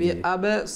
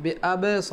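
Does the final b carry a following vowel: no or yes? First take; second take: yes; yes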